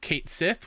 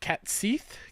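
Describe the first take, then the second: First: The first word sounds like 'Kate'. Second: The first word sounds like 'cat'. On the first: This is the officially announced pronunciation. "officially said like this is how you pronounce it" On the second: This follows the name's Gaelic origin. "it's a Gaelic name, and you say it"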